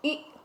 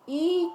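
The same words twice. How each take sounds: First: ई said short and quick; brief ई, straight into the next word; short vowel. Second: ई drawn out before carrying on; long vowel. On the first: Teacher teaching children to recognise it, short ई. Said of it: "तो छोटी ई की मात्रा है". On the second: Teacher teaching children to recognise it, long ई. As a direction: lengthen ई clearly. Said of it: "बड़ी ई की मात्रा आप लगाएंगे". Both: Shown as a demonstration.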